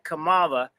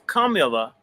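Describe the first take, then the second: First: The name is said with a non-Indian pronunciation. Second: The name is said with the Indian pronunciation. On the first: The speaker calls it wrong. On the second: This is how the name is properly said. The speaker calls it right. "proper pronunciation is Kamala"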